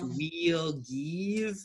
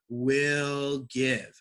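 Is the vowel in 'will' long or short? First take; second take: long; short. First: The vowel in will is a long ee. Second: The vowel in will is a short i. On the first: The speaker calls it wrong. "not we'll give" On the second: The speaker calls it right. "making that soft I sound"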